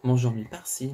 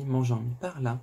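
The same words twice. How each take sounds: First: "mangeant mi par-ci" lilted up at the end, "par-ci" rising; light mocking singsong with a rising tune on "par-ci". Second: "mangeant mi par-là" answered with a falling tune on "par-là"; mock singsong, falling. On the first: Mocking the wife's lover, "par-ci" with a rising tune. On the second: Mocking the wife's lover, "par-là" with a falling tune. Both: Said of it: "Tu l'auras entendu".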